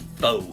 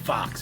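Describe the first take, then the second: First: The word ends on a vowel sound. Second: The word ends with a ks sound. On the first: The speaker calls it right. "but it's really faux" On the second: The speaker calls it wrong. "people sometimes pronounce it fox"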